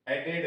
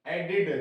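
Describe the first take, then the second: First: एडेड said with a full एड ending, softer; wrong way. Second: एडेड said with a short इड ending; right way. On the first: (गलत उच्चारण एडेड, अंत में एड) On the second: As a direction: say एडेड with इड at the end. (सही उच्चारण एडेड, अंत में इड) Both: Shown as a demonstration. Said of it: "एडेड नहीं".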